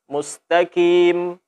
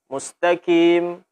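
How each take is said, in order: Both takes have the same delivery.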